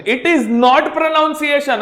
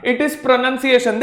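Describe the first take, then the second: First: Pronunciation said slowly as pro-noun-see-ay-shun; wrong NOUN vowel. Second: Pronunciation said slowly as pro-nun-see-ay-shun; correct NUN vowel. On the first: Teacher warning students off the error, pronunciation with "noun". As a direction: stretch out the faulty "noun" in pronunciation. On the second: Teacher modelling the right form, pronunciation with "nun". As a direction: make the second syllable of pronunciation "nun". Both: Shown as a demonstration.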